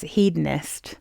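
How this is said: The word is said the American way. "everyone in America says"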